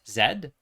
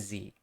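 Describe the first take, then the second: First: The letter is said the Canadian English way. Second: The letter is said the speaker's own way. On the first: "in Canadian English it's Z" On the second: "but I'm Z"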